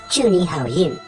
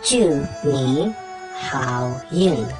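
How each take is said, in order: First: The phrase is said at a normal pace. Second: The phrase is said slowly and carefully.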